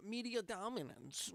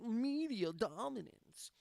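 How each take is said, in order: First: Said in the usual way. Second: MEDIA DOMINANCE stretched slow and higher; slow, mock-grand "Media dominance"; drawn-out emphasis. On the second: Grand repeat of his own phrase.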